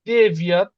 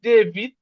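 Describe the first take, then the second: First: The word ends with a 'yat' sound. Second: The word ends with an 'it' sound. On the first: This is the full native pronunciation. "উচ্চারণটা আসলে ডেভিয়াত" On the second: This simplified form is good enough. "But এটা যদি আমরা বলি দেবিত, দেশিত, এটুক বললেই হচ্ছে"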